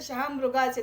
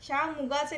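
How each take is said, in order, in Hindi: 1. दूसरा अक्षर 'mru' है, इसमें r है। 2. दूसरा अक्षर सादा 'mu' है। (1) "तर शहामृगाचे" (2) "ते शहामुगाचे नाही"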